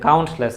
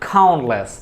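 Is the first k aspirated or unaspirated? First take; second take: unaspirated; aspirated. First: The first k is plain, without a puff of air. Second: The first k has a strong puff of air. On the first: The speaker calls it wrong. "কাউন্টলেস না" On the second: The speaker calls it right. "ক প্রত্যেকটাকে তুমি খ বলে দিবা"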